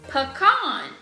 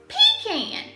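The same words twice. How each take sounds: First: It is said the way most other people say it. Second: It is said in the speaker's Georgia accent.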